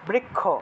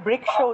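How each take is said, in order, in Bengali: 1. এই ধ্বনিগুচ্ছটি k এবং kh এর যোগে উচ্চারিত হয়। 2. এই ধ্বনিগুচ্ছটি k এবং sh এর যোগে উচ্চারিত হয়। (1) "বৃক তারপরে দুইটা ক লাগিয়ে দিই" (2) "বাংলাতেও আসলে বৃক্ষ উচ্চারণ করা উচিত ছিল"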